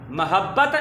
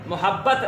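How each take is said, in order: First: मोहब्बत starting "ma-"; short a after the m in मोहब्बत; correct pronunciation. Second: मोहब्बत starting "mu-"; short u after the m in मोहब्बत; mispronunciation demo. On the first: Teacher correcting pupils, correct pronunciation. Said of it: "दुरुस्त है". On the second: Teacher citing the common reading, mispronunciation demo. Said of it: "गलत है". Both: Shown as a demonstration.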